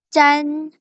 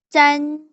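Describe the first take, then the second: Both takes have the same delivery.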